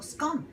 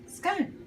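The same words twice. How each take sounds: First: "scone" with a short O, rhyming with "gone". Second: "scone" with a long O, rhyming with "cone". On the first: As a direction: offer the other "scone", higher, rhyming with "on". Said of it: "or scone. I say scone". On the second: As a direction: say "scone" to rhyme with "stone". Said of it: "I say scone". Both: Shown as a demonstration.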